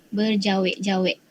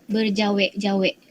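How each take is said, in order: Both takes have the same delivery.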